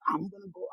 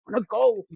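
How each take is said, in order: First: Said in the usual way. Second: Much louder, a defiant shout; loud repeat. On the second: Retold or imitated. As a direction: blurt it out loud the second time. Imitating a vengeful cheater.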